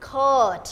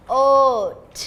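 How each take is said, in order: First: Said in the usual way. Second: Coat split into k, long o, t; sounded out. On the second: Shown as a demonstration. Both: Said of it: "Teacher Louis will dictate".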